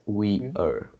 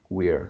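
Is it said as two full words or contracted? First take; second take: full; contracted. First: It is said as two full separate words. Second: It is said as one short contracted syllable. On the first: "So it's like we are" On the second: "This is the short form of we are"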